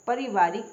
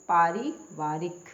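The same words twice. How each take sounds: First: पारिवारिक with short first vowel, pa-ri-vaa-rik; wrong pronunciation. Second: पारिवारिक slowly with long first aa, paa-ri-vaa-rik; correct pronunciation. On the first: Teacher showing a misspelling, पारिवारिक begun with short pa. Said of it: "ये गलत है". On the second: Teacher answering her question, पारिवारिक slow with long paa. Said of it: "पारिवारिक क्या होता है". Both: Shown as a demonstration.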